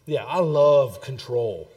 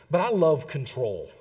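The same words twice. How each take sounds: First: "love" drawn out loud and long; stress on love. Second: Said in the usual way. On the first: Real, not acted. Preacher confessing to fellow control freaks, heavy stress on "love". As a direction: lean slowly and hard on "love".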